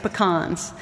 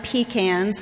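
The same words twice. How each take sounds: First: Pecans is pronounced the Austin, Texas way. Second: Pecans is pronounced the local Detroit way. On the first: The speaker calls it right. "It's pecans" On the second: The speaker calls it wrong. "we do not say pecans like they stay here in Detroit"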